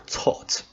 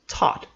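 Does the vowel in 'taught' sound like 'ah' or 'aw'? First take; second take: aw; ah. First: The vowel is a rounded 'aw' sound. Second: The vowel is an open 'ah' sound. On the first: This is the British pronunciation. "an O in British English" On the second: This is the American pronunciation. "an A sound in American English"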